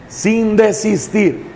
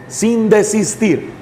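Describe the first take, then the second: No difference in how they are said.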